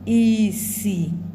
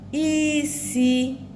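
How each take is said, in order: First: Both syllables are on a low tone. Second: A high tone is followed by a mid tone. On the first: It means blindness. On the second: It means to cook. "to cook"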